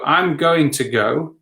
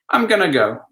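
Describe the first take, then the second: First: Each word is said clearly and fully. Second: The words run together quickly into a reduced form.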